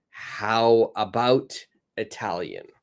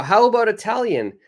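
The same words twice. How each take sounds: First: Teacher modelling a suggestion slowly; slow model suggestion. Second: High, fast, louder upbeat suggestion; teacher showing an eager suggestion; bright suggestion. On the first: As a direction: stretch the how, let Italian fall away. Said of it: "So I've got". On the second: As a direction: pitch it up like a cheerful offer. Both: Shown as a demonstration.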